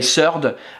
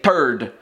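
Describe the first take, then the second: First: It begins with an s sound. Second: It begins with a hard t sound. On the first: "the French would say surde" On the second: "the Québécois would say third, uh, like turd"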